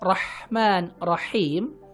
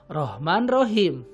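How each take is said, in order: First: The h is a harsh sound from mid-throat. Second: The h is a plain, light breathy sound. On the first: The speaker calls it right. "Harusnya ha rahman rahim ya" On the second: The speaker calls it wrong. "tapi kita baca dengan rahman rahim ya"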